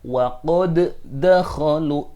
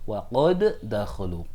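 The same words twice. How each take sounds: First: The first d is sounded separately before the next. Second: The two d sounds merge into one doubled d. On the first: The speaker calls it wrong. "Tidak boleh membaca" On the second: The speaker calls it right. "Maka dia wajib dibaca idgham"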